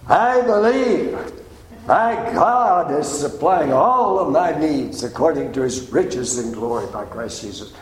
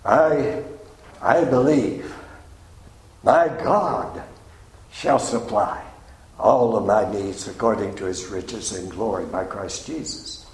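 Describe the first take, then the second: First: It is said loudly. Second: It is said at normal loudness.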